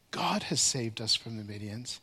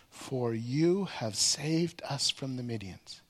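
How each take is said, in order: First: "God" lifted with a rise, the rest much lower; stress on God. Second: Slow, with "you" leaned on hard; stress on you. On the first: Preacher contrasting what they should have said, "God" lifted. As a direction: point up at "God" as the one who saved. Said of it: "They didn't say". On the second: Preacher stressing that the tribe leaders credit "you", slow. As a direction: draw it out and land on "you". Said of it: "Did you catch those words?". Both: Shown as a demonstration.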